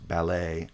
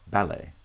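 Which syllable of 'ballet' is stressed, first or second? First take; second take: second; first. First: The stress is on the second syllable. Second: The stress is on the first syllable. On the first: This is the usual American pronunciation. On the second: This is how some British English varieties say it.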